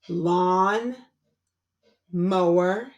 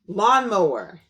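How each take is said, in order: First: The two parts are separated by a pause. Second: The two parts are blended quickly together. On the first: "My turn" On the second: "Say it fast"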